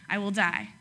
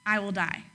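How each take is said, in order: First: I will DIE, weight on die; I will die, die stressed. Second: I will die, with I pushed; I stressed in I will die. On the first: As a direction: land on die with a falling tune. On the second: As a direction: lean on I, not on die. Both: Shown as a demonstration. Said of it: "And if you do not do this".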